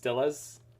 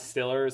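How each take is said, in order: First: The final R sound is dropped. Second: The final R sound is pronounced. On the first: The speaker calls it right. "you don't pronounce the R" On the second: The speaker calls it wrong. "It's not Stillers"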